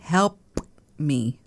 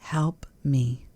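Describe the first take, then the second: First: The P in 'help' is crisp and clearly released. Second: The P in 'help' is soft and barely heard.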